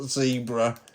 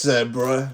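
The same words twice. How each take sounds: First: It is said with an American pronunciation. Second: It is said with a British pronunciation. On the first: The speaker calls it wrong. "Americans will call this zebra" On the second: The speaker calls it right. "It's zebra"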